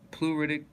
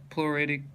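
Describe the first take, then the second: No difference in how they are said.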